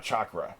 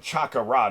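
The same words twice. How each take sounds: First: "chakra" in two syllables, CHAHK-ruh; "chakra" with no vowel between k and r; English pronunciation. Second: "chakra" in three syllables, cha-ka-ra; "chakra" as the Japanese say it, a full "a" after the k; Japanese pronunciation. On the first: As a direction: say "chakra" with k and r run together. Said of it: "not chakra". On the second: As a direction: say "chakra" with an extra vowel, CHAH-kah-rah. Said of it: "they pronounce it chakra". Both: Shown as a demonstration.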